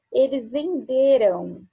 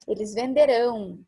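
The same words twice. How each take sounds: First: Venderam said slowly and carefully, ending in a nasal "-ram" close to "-rão"; the past form "venderam" sounded deliberately for the class; venderam, past tense. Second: Venderão with a falling "-rão" ending, almost like venderam; the future "venderão" contrasted with the past form; venderão, future tense. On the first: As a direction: spell out "eles venderam" slow, past tense. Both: Shown as a demonstration. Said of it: "Esse venderão parece com venderão".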